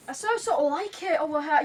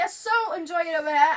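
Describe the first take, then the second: First: Light British accent demo. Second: Louder, clearly British take; British accent. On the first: Girl showing off her British accent for the host. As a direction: try the line in British English. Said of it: "the British one". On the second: Same line again in British English for the host. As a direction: say it the British way with a lift on so. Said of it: "Uh, American". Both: Shown as a demonstration.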